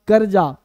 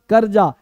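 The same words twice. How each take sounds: Both takes have the same delivery.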